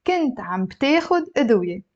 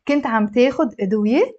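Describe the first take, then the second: First: كنت عم بتاخد أدوية as a statement, pitch settling down at the end; 陈述语气. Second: كنت عم تاخد أدوية as a quick question, voice rising on أدوية; 疑问语气. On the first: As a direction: let أدوية close evenly, without a questioning rise. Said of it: "I'm gonna make a statement". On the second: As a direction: lift the end of أدوية to ask it. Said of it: "now I'm gonna ask a question". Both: Shown as a demonstration.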